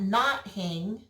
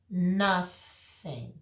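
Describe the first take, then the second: First: The word splits into 'not' plus 'hing'. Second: The word begins 'nuh' with a breathy 'th'. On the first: The speaker calls it wrong. "it's not not hing" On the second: The speaker calls it right. "The T H was a breath"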